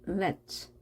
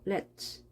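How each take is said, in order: First: The final t and s blend into one sound. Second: The final t and s blend into one sound.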